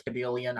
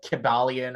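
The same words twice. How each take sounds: First: Another attempt at saying Kybalion; second alternative pronunciation. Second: First attempt at saying Kybalion; alternative pronunciation. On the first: Unsure reader offering a second way to say the title, alternative pronunciation. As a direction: Kybalion with its middle vowel changed. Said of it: "no idea how to fucking pronounce". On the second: Unsure reader offering one way to say the occult title, alternative pronunciation. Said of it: "I've been pronouncing it". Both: Shown as a demonstration.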